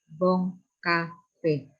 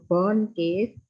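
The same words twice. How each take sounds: First: Bon Cafe slowly as "bong ka-fe"; nasal Bon, then Cafe in two even syllables; correct French pronunciation. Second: Bon Cave read English-style, "bon keif"; wrong pronunciation. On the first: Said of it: "tapi Bon Cafe". (Bon Cafe dibaca pelan "bong ka-fe", Bon sengau) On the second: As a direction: Bon Cave slowly, with a plain n in Bon. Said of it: "bukan Bon Cave". (Bon Cave salah dibaca ala Inggris, "bon keif") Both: Shown as a demonstration.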